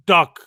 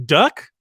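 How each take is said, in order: First: Imitated Chinese-accented DUCK, falling as a statement. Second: DUCK rising as a puzzled question; questioning echo. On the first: Chef naming the dish to the family, Chinese accent. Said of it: "he had an accent". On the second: Retold or imitated. The family checking what the chef served, questioning. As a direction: echo DUCK back, pitch lifting at the end. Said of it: "And we're like".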